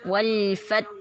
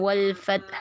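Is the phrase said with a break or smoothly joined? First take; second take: smoothly; break. First: The phrase flows smoothly without any break. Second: The phrase is broken up with a break inside. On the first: The speaker calls it right. "kayak gitu dialirkan saja" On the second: The speaker calls it wrong. "jangan wal fath, ... kayak terputus tadi"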